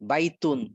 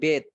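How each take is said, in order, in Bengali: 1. শব্দটি শেষ অংশসহ পুরোটা বলা হয়। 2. শব্দটি এক সিলেবলে সংক্ষেপ করা হয়। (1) "বাইতুন কঠিন না একটু" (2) "তোরা বলবে বেত"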